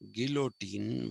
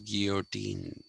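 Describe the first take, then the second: First: The word has its everyday, familiar pronunciation. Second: The word has a different, less familiar pronunciation. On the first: This is how people usually say it. The speaker calls it wrong. "which we pronounce as" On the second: This is how it is supposed to be said. The speaker calls it right. "it is actually supposed to be pronounced as"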